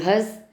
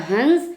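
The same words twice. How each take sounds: First: हँस with a nasalized vowel; हँस as the verb, nasal vowel; anunasika in हँस. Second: हंस with a full nasal consonant; हंस said as hans; anusvara in हंस. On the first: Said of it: "और दूसरा क्रिया है". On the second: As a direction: sound the n in हंस, the bird. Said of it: "एक पक्षी का नाम है". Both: Shown as a demonstration.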